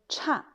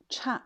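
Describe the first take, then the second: First: The syllable has a sharp falling tone. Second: The same.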